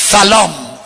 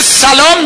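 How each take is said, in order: First: سلام said with the s blurred, like a th or sh; سلام, the s sound not managed; mispronounced salaam. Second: Said in the usual way. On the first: Shown as a demonstration. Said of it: "میگه". (سلام با سین نادرست و نارسا)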